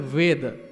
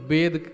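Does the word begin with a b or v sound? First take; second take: v sound; b sound. First: The word begins with a v sound. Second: The word begins with a b sound. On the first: This is the pure, correct form. "शुद्ध शब्द होता है वेद" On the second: This is how people commonly say it. "लेकिन हम वेद कहते हैं बार बार"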